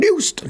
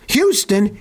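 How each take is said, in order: First: The first syllable sounds like 'how'. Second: The first syllable sounds like 'hew'. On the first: This is how the street name is said in England. "they call it Houston" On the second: This is how Texans say the city's name. "they pronounce Houston"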